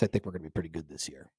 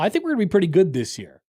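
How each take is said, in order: First: It is said in an unsure, hesitant tone. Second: It is said in a confident, bold tone. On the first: The speaker is not really sure of the team. "I mean, I guess" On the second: Others should beware of the team. "Hey, people need to watch out now"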